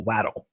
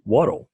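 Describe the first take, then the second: First: "Wattle" said WAT-ul, first vowel as in "cat"; alternative pronunciation. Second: "Wattle" said WOT-ul, first vowel as in "hot"; alternative pronunciation. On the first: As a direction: say "Wattle" with a short flat a, rhyming with "battle". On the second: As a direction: say "Wattle" with an open o sound, rhyming with "bottle". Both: Shown as a demonstration. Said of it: "I don't know how to pronounce".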